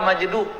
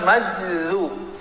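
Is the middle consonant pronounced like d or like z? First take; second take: d; z. First: The middle consonant sounds like a d. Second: The middle consonant sounds like a z. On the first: This is how the word ends up being said in Java. The speaker calls it wrong. "Nyampe di Jawa majdub" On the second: This is the original, correct form of the word. The speaker calls it right. "yang benar majzub, ya, keza"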